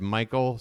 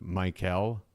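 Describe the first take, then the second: First: "Michael" run together the lazy, everyday way; lazy pronunciation. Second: "Michael" with the second syllable fully sounded, like Mike-ELL; full pronunciation. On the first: Explaining the name mix-up, lazily pronounced "Michael". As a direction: say "Michael" casually, second syllable swallowed. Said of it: "it's a lazy way to pronounce it". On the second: Correcting his lazy version, carefully pronounced "Michael". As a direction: say "Michael" carefully as two distinct syllables, softer. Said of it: "instead of Michael". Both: Shown as a demonstration.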